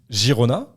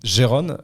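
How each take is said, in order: First: The name is said with Spanish pronunciation. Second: The name is said with French pronunciation. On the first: "à l'espagnol" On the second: "à la française"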